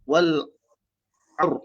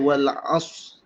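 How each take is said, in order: First: It ends on the r sound, with no s. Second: It ends on the s sound, with no r. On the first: "tak ada sad" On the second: "Adakah dengan kita baca wal as sahaja?"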